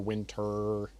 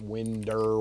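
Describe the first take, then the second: First: The middle consonant is a clear T sound. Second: The middle consonant sounds like a soft D. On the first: The speaker calls it right. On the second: The speaker calls it wrong. "not Winder"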